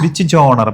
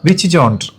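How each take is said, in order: First: Genre is said without a d sound, like 'jonner'. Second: Genre is said with a d sound, like 'jonder'. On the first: This is how the word is properly said. "ജോണർ എന്നാണ് അത് പറയാ" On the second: This is how people here usually say it. "പക്ഷെ നമ്മൾ പറയുമ്പോ"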